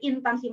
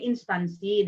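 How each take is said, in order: First: There is no s sound before the t. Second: There is an s sound before the t. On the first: The speaker calls it wrong. "itu pasti Jawa Barat" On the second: The speaker calls it right. "harusnya instansi"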